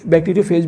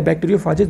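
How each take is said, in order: First: "बैक्टीरियोफेज" ending in one syllable, "fayj"; first pronunciation variant. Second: "बैक्टीरियोफाजेज" ending in two syllables, "faa-jez"; second pronunciation variant. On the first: Teacher reassuring students either form works, "बैक्टीरियोफेज" ending in fayj. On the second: Teacher reassuring students either form works, "बैक्टीरियोफाजेज" ending in faa-jez. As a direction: open "बैक्टीरियोफाजेज" to a long aa, then jez. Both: Shown as a demonstration. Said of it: "दोनों एक ही चीज़ है".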